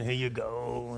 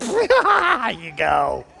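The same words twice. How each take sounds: First: It is said reluctantly, with annoyance. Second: It is said cheerfully, with laughter.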